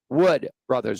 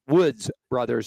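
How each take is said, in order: First: The first word ends without an s sound. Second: The first word ends with an s sound. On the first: The speaker calls it right. "it is Wood Brothers" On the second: The speaker calls it wrong. "it was not the Woods Brothers"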